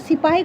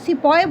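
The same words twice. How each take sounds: First: It is said with a Hindi pronunciation. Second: It is said with an English pronunciation.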